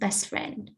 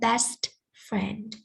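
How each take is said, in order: First: The T at the end of best is dropped. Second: The T at the end of best is pronounced. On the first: The speaker calls it right. "just best friend, and the T sound here disappear" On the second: The speaker calls it wrong. "but it's not best friend"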